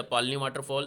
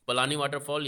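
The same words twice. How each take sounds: First: पालनी with long first vowel, no vowel after the l; alternative pronunciation. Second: पलानी with short first vowel, long second; alternative pronunciation. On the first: Teacher offering students either name for the waterfall, alternative pronunciation पालनी. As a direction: say पालनी as PAAL-nee. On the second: Teacher offering students either name for the waterfall, alternative pronunciation पलानी. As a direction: say पलानी as pa-LAA-nee. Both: Shown as a demonstration. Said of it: "जो कुछ भी इसका आप उच्चारण".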